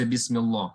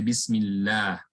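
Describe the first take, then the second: First: The lam is pronounced heavy, with a full mouth. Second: The lam is pronounced light, with an empty mouth. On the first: The speaker calls it wrong. "We don't say bismillah" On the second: The speaker calls it right. "We say bismillah. The tongue lines lies flat"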